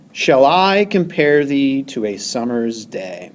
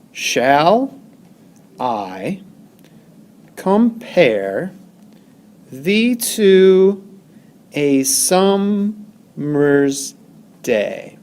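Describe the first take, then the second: First: Said in the usual way. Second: "Shall I compare thee to a summer's day" very slow, broken into separate syllables with pauses; syllable-by-syllable scansion. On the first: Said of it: "one of the most famous lines". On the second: Shown as a demonstration. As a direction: count out shall, I, com-pare, thee to, a sum-mer's, day. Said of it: "each iamb has one, two syllables".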